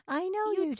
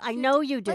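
First: It is said in a gentle, friendly tone. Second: It is said in a curt, impatient tone. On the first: The speaker is being patient with the listener. The speaker calls it right. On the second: The speaker is irritated with the listener. The speaker calls it wrong.

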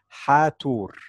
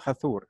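First: The t and h are said as separate sounds. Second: The t and h blend into one th sound. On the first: The speaker calls it right. "It is Hathor" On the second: The speaker calls it wrong. "It is not Hathor"

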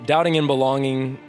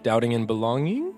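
First: The voice stays level without a questioning rise. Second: The voice rises like a question.

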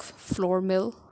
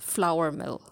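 First: The first word rhymes with door. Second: The first word rhymes with power. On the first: The speaker calls it wrong. "I've heard words used like floor mill, ... but it's actually wrong" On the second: The speaker calls it right. "It's flour mill, because it's flour"

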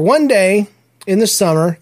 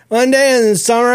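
First: It is said in the speaker's normal adult voice. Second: It is said in a put-on young kid's voice.

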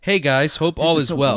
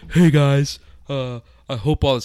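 First: It is read in a plain, ordinary voice. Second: It is read in a slow, dazed stoner voice. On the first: "I'll just read the thing" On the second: "I'll do it in the stoner voice"

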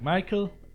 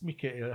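First: The name is pronounced with English sounds. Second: The name is pronounced with Swedish sounds. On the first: "the English pronounce probably Michael" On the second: "I don't know how the Swedish pronounce it. I think it's Michael"

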